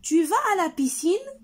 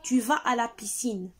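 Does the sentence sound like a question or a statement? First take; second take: question; statement. First: It is said with questioning intonation. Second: It is said with plain statement intonation. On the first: It asks a question. "je dois changer la voix, l'intonation de ma voix" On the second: It states a fact. "S'il s'agit d'une phrase déclarative comme ici, je vais dire"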